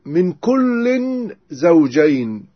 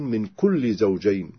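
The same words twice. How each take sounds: First: "كل" said as kullin with clear nunation, slowed; with tanwin, slowly. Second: "كل" said as kulli with no nunation; without tanwin. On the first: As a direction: stretch "كل" and sound the tanwin. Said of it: "بالتنوين". ("كلٍّ" بالتنوين ببطء) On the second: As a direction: drop the n on "كل", slower. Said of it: "بدون تنوين". ("كلِّ" بدون تنوين) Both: Shown as a demonstration.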